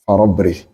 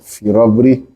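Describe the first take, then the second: First: The first vowel is an 'a' sound. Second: The first vowel is an 'i' sound. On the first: "you give it Fatha" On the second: "you can give it Kasra"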